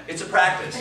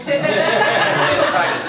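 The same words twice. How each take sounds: First: Said in the usual way. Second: Slow and laughing, higher and louder. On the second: Real, not acted. Teacher laughing as she repeats her motto to the class. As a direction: laugh your way through the catchphrase.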